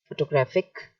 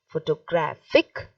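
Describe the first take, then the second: First: It is said plainly with no marked stress. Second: It is said with one syllable clearly stressed. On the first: "I am saying it very plainly first" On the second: "Then we will say it with the stress"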